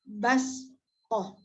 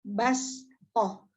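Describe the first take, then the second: The two takes are said the same way.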